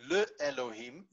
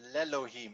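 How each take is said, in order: First: The prefix is said as its own syllable. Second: The prefix merges into the following vowel. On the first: The speaker calls it wrong. "you do not get le Elohim" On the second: The speaker calls it right. "but you get l'Elohim"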